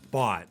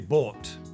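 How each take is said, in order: First: The vowel is the standard American variant. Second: The vowel is a learner's non-standard variant. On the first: The speaker calls it right. "But we want to say bought" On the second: The speaker calls it wrong. "a lot of my students will say bought"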